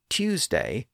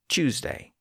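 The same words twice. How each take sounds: First: The word begins with a plain T sound. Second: The word begins with a CH-like sound.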